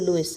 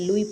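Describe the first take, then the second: First: The name ends with a clear s sound. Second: The name ends on a vowel, without s. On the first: The speaker calls it wrong. "लोग पढ़ते हैं इसको लुइस, लेकिन आपने एस को नहीं पढ़ना" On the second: The speaker calls it right. "एस इसमें साइलेंट होता है"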